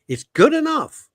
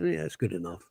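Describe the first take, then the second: First: It sounds genuinely satisfied and positive. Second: It sounds dismissive, meaning that'll do.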